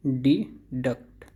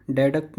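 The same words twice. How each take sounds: First: डिडक्ट slowly split as "dee... duct"; slow "dee" opening, then duct, for डिडक्ट; correct pronunciation. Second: डेडक्ट starting with "de", as in den; wrong pronunciation. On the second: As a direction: say "DEH-duct" for डेडक्ट. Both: Shown as a demonstration. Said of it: "डेडक्ट नहीं".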